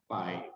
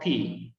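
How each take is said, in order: First: It is said the way Western speakers say it. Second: It is said the way Greek speakers say it. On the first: "beberapa orang barat melafalkannya pi" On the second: "native Greek it's called pi"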